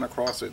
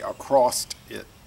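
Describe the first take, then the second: First: Across ends plainly with an s sound. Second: Across ends with an added t sound. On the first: The speaker calls it right. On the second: The speaker calls it wrong.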